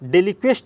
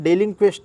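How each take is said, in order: First: The n sound before the k is dropped. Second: The n sound before the k is kept. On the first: "डेलिक्वेस्ट बोलते हैं लेकिन एन मत खा जाना" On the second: "डेलिंक्वेस्ट बोलिएगा"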